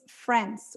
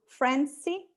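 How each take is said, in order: First: The word is said with one syllable. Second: The word is said with two syllables. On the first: The speaker calls it right. "the way you have to say it's France... only one syllable" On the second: The speaker calls it wrong. "we transfer that to"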